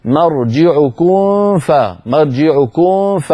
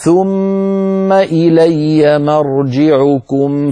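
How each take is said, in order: First: مرجعكم ending in a nasal n-like hum before ف, wrong; wrong ikhfa of the mim; hidden mim, wrong. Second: مرجعكم with the final mim closed and clear before ف; clear mim, correct. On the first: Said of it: "المتخوف منه هكذا". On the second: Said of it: "فعلينا أن نخرجها بلطف هكذا". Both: Shown as a demonstration.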